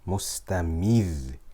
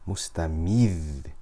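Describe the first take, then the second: No difference in how they are said.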